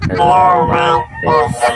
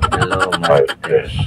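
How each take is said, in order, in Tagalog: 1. Ang boses ay may baby effect. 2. Ang boses ay may uncle effect. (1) "Baby sound effect" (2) "Uncle sound effect"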